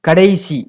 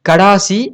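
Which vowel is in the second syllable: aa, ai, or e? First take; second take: ai; aa. First: The second syllable has an ai vowel. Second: The second syllable has a long aa vowel. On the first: This is the standard written form. The speaker calls it right. "கடைசி அப்படிங்கிறதா correct" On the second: This is the colloquial spoken form. The speaker calls it wrong. "கடேசி கடாசி அப்படின்னு சொல்லக்கூடாது"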